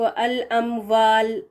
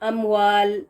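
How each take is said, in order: First: The consonant is a v sound, teeth on lip. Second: The consonant is a w sound, lips rounded. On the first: The speaker calls it wrong. "वाल की आवाज़ ऐसे पढ़ा जाता है" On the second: The speaker calls it right. "लेकिन सही क्या है?"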